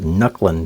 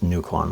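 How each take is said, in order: First: The first vowel is a short U. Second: The first vowel is a long U. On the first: The name sounds less intimidating. "doesn't sound as intimidating" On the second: The name sounds intimidating. "like long U"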